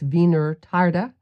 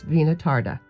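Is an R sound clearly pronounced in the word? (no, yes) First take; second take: yes; no. First: The word is said with a clear R sound. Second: The word is said without a clear R sound. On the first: The speaker calls it right. "because there's an R in there" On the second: The speaker calls it wrong. "I know I'm pronouncing that just a little off"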